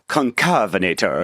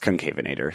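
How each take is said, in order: First: The name is said in a sultry, showy way. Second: The name is said in a plain, ordinary way. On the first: The speaker calls it wrong. "I wanted to say conca- concavenator, you know, or something like very sexy" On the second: The speaker calls it right. "but I, it's concavenator"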